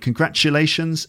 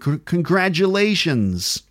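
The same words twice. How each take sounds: First: The middle consonant is a voiceless ch sound. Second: The middle consonant is a voiced j sound. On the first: This is the British pronunciation. "So I'm saying congratulations" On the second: This is the American pronunciation. "and in American"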